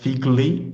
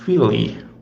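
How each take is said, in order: First: The middle has a hard G before the L. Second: The middle sounds like a soft L. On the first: The speaker calls it wrong. "the pronunciation is not figli" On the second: The speaker calls it right. "is fili"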